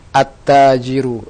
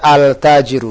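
First: The L sound merges into a doubled T. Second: The L sound is clearly pronounced before the T. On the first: The speaker calls it right. "Yang benar adalah at-tajiru. Lamnya masuk huruf ta" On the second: The speaker calls it wrong. "Tidak tepat kalau kita baca al-tajiru"

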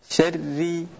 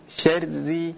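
No difference in how they are said.

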